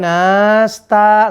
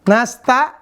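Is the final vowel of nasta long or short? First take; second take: long; short. First: The final vowel is drawn out long. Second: The final vowel is short. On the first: The speaker calls it wrong. "nggak boleh nasta" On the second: The speaker calls it right.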